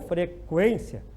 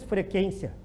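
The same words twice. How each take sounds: First: The U is pronounced after the K sound. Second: The U is silent, like a plain K sound. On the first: The speaker calls it right. "tem que pronunciar o U" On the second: The speaker calls it wrong. "o U não pode ser pronunciado, porque ninguém diz frequência"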